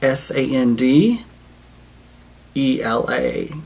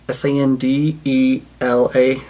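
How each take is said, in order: First: The letters are spelled out slowly. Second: The letters are spelled out quickly. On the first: The speaker calls it right. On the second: The speaker calls it wrong.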